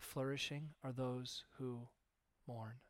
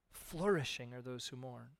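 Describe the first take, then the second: First: Soft, slow, tender pronouncement; gentle Jesus. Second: Said in the usual way. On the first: Acted. Jesus gently telling mourners they flourish, soft and slow. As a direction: speak it softly as a blessing. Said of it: "Jesus is like".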